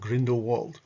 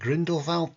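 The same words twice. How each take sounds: First: The name is said with English sounds. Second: The name is said with German sounds. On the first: The speaker calls it wrong. "not Grindelwald. Get that straight" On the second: The speaker calls it right. "that's the German pronunciation"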